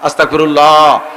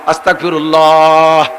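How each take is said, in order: First: The word is drawn out a little longer. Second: The word is drawn out the longest.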